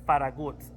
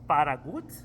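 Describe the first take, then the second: First: The name is said with a Spanish pronunciation. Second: The same.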